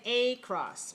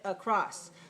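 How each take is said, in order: First: The first vowel is a clear a sound. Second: The first vowel is a weak uh sound. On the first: The speaker calls it wrong. "we can't say a cross because a is clear, and that's not correct" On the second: The speaker calls it right. "we sound like uh, uh, when we say across"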